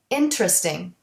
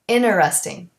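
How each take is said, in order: First: The vowel after the t is dropped. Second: The t sound after the n is dropped. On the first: "the E in interesting" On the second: "sometimes the T in interesting"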